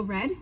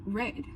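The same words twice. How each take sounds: First: Said in the usual way. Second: Southern "red", vowel drawn out; Southern American accent. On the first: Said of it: "in normal American accent". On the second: Shown as a demonstration. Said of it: "the elongated vowels".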